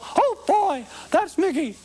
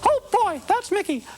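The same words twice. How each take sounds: First: The Mickey voice is pitched lower. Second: The Mickey voice is at medium pitch.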